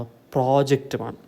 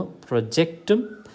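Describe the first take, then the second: First: Project-ുമാണ് as PRO-ject with a long PRO; stress on first syllable. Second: Project-ും as pro-JECT-um; stress on second syllable. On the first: Teacher contrasting noun with verb, PRO-ject in project-ുമാണ്. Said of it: "noun from a". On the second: Teacher contrasting verb with noun, pro-JECT in project-ും. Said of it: "stress falls on the second syllable". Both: Shown as a demonstration.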